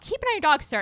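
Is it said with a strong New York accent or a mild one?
mild. It is said with a mild accent.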